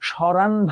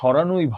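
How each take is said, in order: First: The word ends without an o sound. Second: The word ends with an o sound. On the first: The speaker calls it wrong. "তুমি তো বলবা না" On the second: The speaker calls it right. "আন প্রত্যয় থাকলে সেটার অ এর উচ্চারণটা ও এর মতো হয়"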